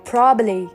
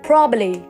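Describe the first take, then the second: First: One b sound is dropped. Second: The same.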